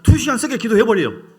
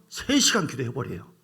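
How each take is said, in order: First: 두 시간 세게 기도해버려요 shouted higher and louder. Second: Said in the usual way. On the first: Shown as a demonstration. Preacher shouting to the congregation to draw out an amen. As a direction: hammer it out to get an amen. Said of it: "아, 미안합니다". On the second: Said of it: "이것도 아멘이 없어요".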